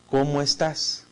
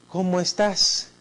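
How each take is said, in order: First: It sounds flat, indifferent and dry. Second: It sounds warm and affectionate. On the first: The speaker does not really care. "En una forma un poco indiferente o seca" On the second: The speaker cares about the listener. "Con una carga afectiva"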